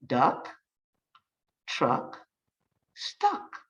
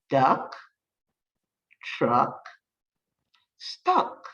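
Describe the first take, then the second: No difference in how they are said.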